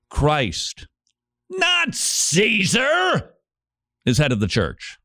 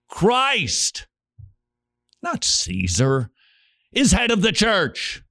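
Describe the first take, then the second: First: It is read in a defiant, rebellious tone. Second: It is read in a calm, humble tone.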